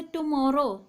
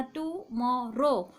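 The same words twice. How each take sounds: First: Said in the usual way. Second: "tomorrow" slowly broken into three syllables. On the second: Shown as a demonstration. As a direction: draw out each of the three parts of "tomorrow". ("Tomorrow" को तीन हिस्सों में, धीरे-धीरे) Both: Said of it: "तीन syllable का बना".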